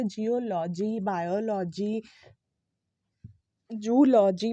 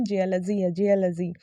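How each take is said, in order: First: Slow open "LAW-jee" ending on "जियोलॉजी, बायोलॉजी, जूलॉजी"; "जियोलॉजी, बायोलॉजी, जूलॉजी" each ending in long "law"; wrong pronunciation. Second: "जियोलॉजी" as JEE-uh-luh-zee, falling; short "luh" in "जियोलॉजी"; correct pronunciation. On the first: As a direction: drag out "जियोलॉजी, बायोलॉजी, जूलॉजी" with full vowels. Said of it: "वो गलत pronunciation है". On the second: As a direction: model "जियोलॉजी" with reduced vowels. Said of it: "correct pronunciation हमारा again". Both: Shown as a demonstration.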